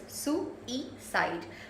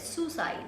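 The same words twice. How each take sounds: First: The word is said with three syllables. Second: The first two syllables merge into one. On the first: The speaker calls it right. "It's got three syllables" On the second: The speaker calls it wrong. "they merge the first and the second syllable and they say it as suicide, which is wrong"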